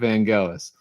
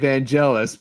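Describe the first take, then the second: First: The name is said the British or Greek way. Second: The name is said the American way. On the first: "from the England and from Greece himself, pronounces it Vangelis" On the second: "if you're American, you most of them say [name]"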